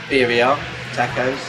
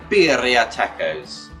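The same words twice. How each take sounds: First: The R sounds are plain, not rolled. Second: The R sounds are rolled. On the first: "So I pronounce it birria tacos" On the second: "I tried to roll the R's there"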